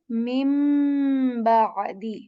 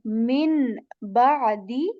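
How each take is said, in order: First: The first word ends with an m sound. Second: The first word ends with an n sound. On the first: "we change the sound of noon with meem letter" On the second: "rather than saying"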